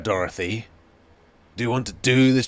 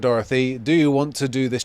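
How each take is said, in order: First: It is said in a gruff, intimidating voice. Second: It is read plainly, without acting. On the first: The protagonist is intimidating them. "you can get a Geralt voice actor type going" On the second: It is just read silently as text. "I read it like this"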